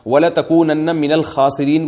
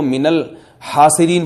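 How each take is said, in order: First: الخاسرین recited slowly with a throaty kh in خاسرین; correct recitation. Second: الحاسرین recited slowly with a breathy h in place of kh; mistaken recitation. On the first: Teacher showing students the correct reading, slow recitation with kh in الخاسرین. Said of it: "اب کسی قاری نے غلطی سے پڑھ لیا". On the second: Teacher imitating a reciter's slip, slow recitation of الحاسرین. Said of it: "کو ... پڑھ لیا". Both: Shown as a demonstration.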